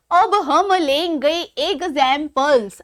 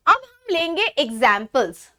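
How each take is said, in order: First: Slower, drawn-out syllable-by-syllable delivery; measured, stretched-out announcement; slow, deliberate repeat. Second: Said in the usual way. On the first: Shown as a demonstration. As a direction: spell it out slowly, piece by piece. Repeats announcement slowly, broken up.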